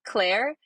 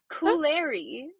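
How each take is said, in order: First: The name is said as one syllable. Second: The name is said with three syllables. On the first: The speaker calls it right. "it's just Claire" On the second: The speaker calls it wrong. "there's just extra syllables"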